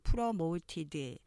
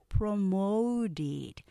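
First: Choppy Korean style, every syllable evenly separated. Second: Smooth three syllables, with stress on the second. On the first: The speaker calls it wrong. "한국식 스타카토로 발음할 수 있지만" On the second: The speaker calls it right. "실제 발음 promoted. 삼음절로 발음하면서 두 번째 액센트 강조돼요"

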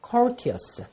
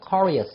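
First: The middle t is pronounced as a clear t. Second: The middle t is softened into a quick flap. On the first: "영국식 발음으로서는" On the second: "부드럽게 발음이 납니다. 워러 그러잖아요"

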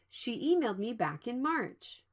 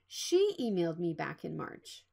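First: The stress is on "March". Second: The stress is on "She".

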